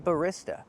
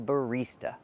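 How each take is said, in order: First: The stressed vowel is a short i sound. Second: The stressed vowel is a long e sound. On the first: The speaker calls it wrong. "We don't use the short I sound like this is. We don't say barista" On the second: The speaker calls it right. "We use the long E sound like green beans"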